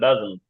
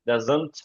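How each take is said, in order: First: The final t sound is nearly dropped. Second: The final t sound is clearly pronounced. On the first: The speaker calls it right. "তারা টিটা উচ্চারণ অতটা করে না" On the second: The speaker calls it wrong. "ডাজন্ট এত বলার সময় তাদের নাই আসলে"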